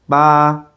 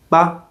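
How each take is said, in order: First: The pitch stays high and level. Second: The syllable is short and light. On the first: It means the number eight. "for the first tone" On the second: It marks a suggestion at sentence end. "there's also a neutral tone"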